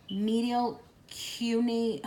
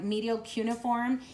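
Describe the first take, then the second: First: Medial cune- broken off slowly, word cut short; slow halting cune- that stops halfway; stumbling over cune-. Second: Said in the usual way. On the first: Real, not acted. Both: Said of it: "I'm trying to say that right".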